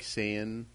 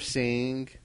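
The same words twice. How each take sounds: First: The final g sound is left off. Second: The final g sound is fully pronounced. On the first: "he'll be like saying" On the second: "instead of saying"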